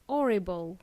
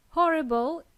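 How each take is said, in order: First: Horrible without its h, "orrible"; horrible, starting straight on the vowel; h dropped. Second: Horrible with a strong breathed h; Horrible, clear h, loud start; h pronounced. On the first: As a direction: drop the H from "horrible". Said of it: "is not pronounced as". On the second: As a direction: sound the H in "Horrible". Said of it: "we pronounce letter H". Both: Shown as a demonstration.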